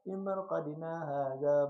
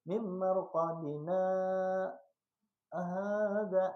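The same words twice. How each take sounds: First: The words run together without any pause. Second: There is a brief pause after marqadina. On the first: The speaker calls it wrong. "Itu salah ngarannya" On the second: The speaker calls it right. "kayak itu mim marqadina hadza. Nah, kayak itu tuh bacaannya"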